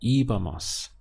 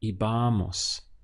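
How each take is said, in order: First: The stress is on the first syllable. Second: The stress is on the second syllable. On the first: The speaker calls it right. "That's where the stress comes over the I" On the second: The speaker calls it wrong. "it's the penultimate syllable that gets stressed ... So here is where we would push down"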